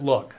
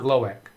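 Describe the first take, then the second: First: It is one syllable, like the word look. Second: It is two syllables, like lo-eek. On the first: The speaker calls it right. "he pronounces it look" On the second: The speaker calls it wrong. "not Loic"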